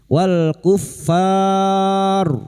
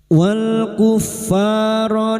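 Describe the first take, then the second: First: It ends in a stop with a lengthened vowel. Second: It runs straight on into the next word. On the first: "dibaca wakaf karena kita memilih wakaf di sini maka mat arid li sukun empat harokat" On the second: "mengulang atau ibtidak"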